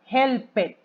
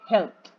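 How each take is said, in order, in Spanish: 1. La terminación es una sílaba extra 'ed'. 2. La terminación es un sonido T simple. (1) "no le puedo agregar esa extra sílaba" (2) "Tengo que pronunciarlo como una T"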